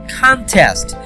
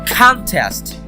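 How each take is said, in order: First: The stress is on the first syllable. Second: The same.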